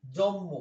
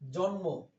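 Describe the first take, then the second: First: জম্ম with n turned into a doubled m; assimilated pronunciation. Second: জন্ম said carefully with a distinct n before m; standard pronunciation. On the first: Teacher showing everyday Bangla assimilation, জম্ম with double m. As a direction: hold one long m in জম্ম. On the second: Teacher showing students the original word, জন্ম with clear n. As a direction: keep the n audible in জন্ম. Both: Shown as a demonstration. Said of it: "বলে না বাংলা ভাষায়".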